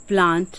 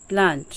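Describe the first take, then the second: No difference in how they are said.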